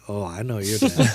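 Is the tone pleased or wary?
wary. It sounds wary and disapproving.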